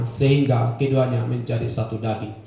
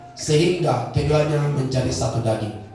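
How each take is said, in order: No difference in how they are said.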